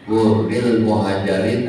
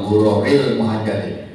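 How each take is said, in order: First: The first word has no vowel between the r's. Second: The first word has an extra vowel between the r's. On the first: The speaker calls it right. "Yang betul Hurril Muhajirin" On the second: The speaker calls it wrong. "Bukan Huroril"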